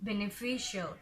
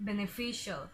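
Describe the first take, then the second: No difference in how they are said.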